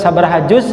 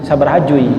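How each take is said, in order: First: The last word ends with a z sound. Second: The last word ends with a y-like vowel. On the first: The speaker calls it right. "Nyebutkan sabaraha juz" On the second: The speaker calls it wrong. "dia katakan seberapa jui"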